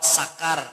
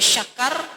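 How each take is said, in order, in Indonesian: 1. Kata itu diawali dengan bunyi s biasa. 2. Kata itu diawali dengan bunyi sh. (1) "dibaca pakai sin kapro sakar artinya teler" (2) "cara besantok dibaca syakar bujure"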